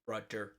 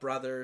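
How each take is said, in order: First: The middle consonant is a hard d sound. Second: The middle consonant is a soft th sound.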